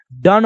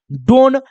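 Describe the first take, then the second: First: "डन" with a short uh vowel; short vowel in "डन", no long o; exception pronunciation. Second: "डोन" with a long o; rule-based mispronunciation. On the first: Teacher giving the real pronunciation, short vowel. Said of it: "डन होता है". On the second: Teacher showing what the rule would give, long o. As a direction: stretch the o in "डोन". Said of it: "इसका उच्चारण डोन नहीं". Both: Shown as a demonstration.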